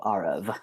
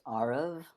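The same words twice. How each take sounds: First: Arav with first syllable like the letter R, stressed, second rhyming with love; careful demo of Arav, R plus rav as in love; name pronounced. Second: Arav stressed on the first syllable, said like the letter R, then rav rhyming with love; name pronounced. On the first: Teacher repeating his name so the host gets it right: Arav, R-rav rhyming with love. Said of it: "the second syllable rhymes with love". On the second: Teacher spelling out his own name for the host: Arav as R, then rav rhyming with love. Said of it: "like the letter R". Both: Shown as a demonstration.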